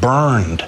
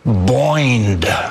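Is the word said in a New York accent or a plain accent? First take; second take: plain; New York. First: The vowel is a plain r-colored 'ur' sound. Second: The vowel sounds like 'oi' in a New York accent. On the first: "the word burned" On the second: "In his New York accent, it became boined"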